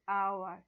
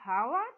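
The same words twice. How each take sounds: First: The word begins directly with a vowel sound. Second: The word begins with an audible H sound. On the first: The speaker calls it right. "it is hour. So H is silent here" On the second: The speaker calls it wrong. "Will you read hour? No"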